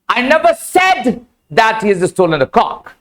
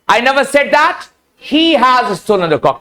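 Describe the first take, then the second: First: The stress is on the word said. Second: The stress is on the word he.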